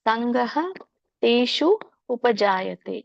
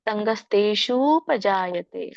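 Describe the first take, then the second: First: The three words are said separately. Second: The words are run together as one. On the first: "ಬಿಡಿಸಿದಾಗ ಮೂರು ಪದಗಳಾಗುತ್ತೆ" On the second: "ಕೂಡಿ"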